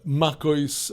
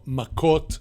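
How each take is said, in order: First: The word ends with an s sound. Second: The word ends with a t sound.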